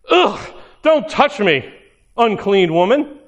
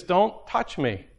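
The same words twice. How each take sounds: First: Disgusted recoil. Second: Said in the usual way. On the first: Retold or imitated. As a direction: sneer it like she's unclean. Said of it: "But is it like". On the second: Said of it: "And he says".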